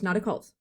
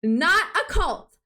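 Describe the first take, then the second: First: Said in the usual way. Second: Slow, loud, higher mock protest; hammed-up insistence on "Not a cult!"; insistent denial. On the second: Shown as a demonstration. Streamer mock-denying a cult to chat, drawn out.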